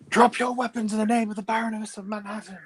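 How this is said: It is said in an angry voice.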